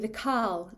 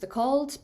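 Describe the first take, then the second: First: It is said with a Northeast Scots pronunciation. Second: It is said with a Lowland Scots pronunciation. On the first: "in the Northeast it would be" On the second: "in Lowland Scotland it would be pronounced"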